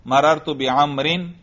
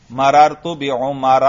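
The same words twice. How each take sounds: First: بعمرن said "bi-Amrin", ending in in; bi-Amrin with tanween. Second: بعمر said "bi-Umara", ending on a without n; slow demo of بعمر with bare a ending; bi-Umara, no tanween. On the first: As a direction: say بعمرن as bi-Am-rin. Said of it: "اس پر تنوین آتی ہے". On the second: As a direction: slowly say بعمر as bi-U-ma-ra. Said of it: "یہ غیر منصرف ہے". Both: Shown as a demonstration.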